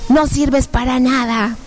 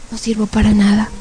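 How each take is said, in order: First: Slow, stretched-out taunt; horrible demon voice. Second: Understated resigned repetition; dejected echo. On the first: Demons running her down, horrible voice. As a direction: drag out the insult like a demon. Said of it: "unas voces horribles que decían". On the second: Woman agreeing with the demons, dejected. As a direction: accept the insult, defeated. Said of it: "empiezo a escuchar mi voz". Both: Retold or imitated.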